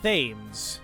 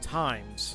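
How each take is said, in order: First: The word begins with a TH sound. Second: The word begins with a plain T sound. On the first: The speaker calls it wrong. "It's not Thames. It's pronounced differently" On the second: The speaker calls it right. "somebody told me I Times, right? That's how you pronounce it"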